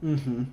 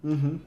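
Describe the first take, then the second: No difference in how they are said.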